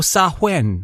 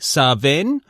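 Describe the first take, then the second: First: The middle consonant is a w sound. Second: The middle consonant is a v sound. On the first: "or Sahwen" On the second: "you can say Saven"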